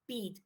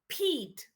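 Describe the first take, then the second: First: The p is said without a puff of air. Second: The p is said with a puff of air. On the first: The speaker calls it wrong. "We don't say Pete" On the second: The speaker calls it right. "We say Pete"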